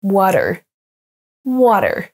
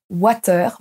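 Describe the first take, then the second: First: Water à l'américaine; English water. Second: Water with an open French A, like watœʀ; water à la française, bouche ouverte; French-style water. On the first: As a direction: say water the American way. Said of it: "mais bien". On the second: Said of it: "attention à ne pas dire". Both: Shown as a demonstration.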